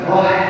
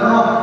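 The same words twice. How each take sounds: First: The final h is strongly breathy and audible. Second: The final h is plain with little breath. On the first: The speaker calls it right. "Ada suara kayak kepedesan Pak" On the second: The speaker calls it wrong. "Bukan roh"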